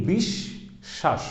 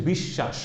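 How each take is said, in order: First: বিশ্বাস drawn out very slowly, holding the doubled শ as "bish-shash"; বিশ্বাস slowly, the শ sound doubled; stretched demo of doubled sh. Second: Said in the usual way. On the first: Shown as a demonstration. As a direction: say বিশ্বাস with a long held doubled শ. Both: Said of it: "কি হচ্ছে দেখেন".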